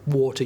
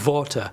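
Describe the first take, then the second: First: It is said with a plain English accent. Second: It is said with a German-sounding accent.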